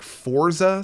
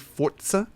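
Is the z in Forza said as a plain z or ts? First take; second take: plain z; ts. First: The z is said as a plain, lazy z. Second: The z is said with a t sound before it. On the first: "Like you do like that lazy Z" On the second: "put like almost a little T sound in front of the Z A"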